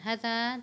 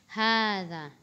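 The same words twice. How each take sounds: First: The first vowel is said short. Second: The first vowel is said long. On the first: The speaker calls it wrong. "bukan hadza" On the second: The speaker calls it right. "dituliskan pendek tapi dibaca panjang"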